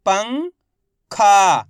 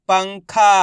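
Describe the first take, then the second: First: पंखा in two parts, "पं" rising, pause, loud "खा"; very slowly sound out पंखा piece by piece; split into syllables. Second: पंखा joined, with loud "खा"; blended whole word. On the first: Teacher breaking पंखा down for learners, syllable by syllable. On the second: Teacher showing learners the result, पंखा blended together. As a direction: say पंखा as one word without a break. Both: Shown as a demonstration. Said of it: "इनको आपस में मिला के पढ़ना है".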